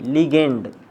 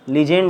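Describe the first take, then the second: First: The middle consonant is a hard g sound. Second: The middle consonant is a soft j sound. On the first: The speaker calls it right. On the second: The speaker calls it wrong. "लिजेंड नहीं"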